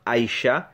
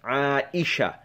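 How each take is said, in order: First: The name is said in a simplified, anglicized way. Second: The name is said with full Arabic sounds. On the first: The speaker calls it wrong. "It's not Aisha" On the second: The speaker calls it right. "but rather it is عائشه"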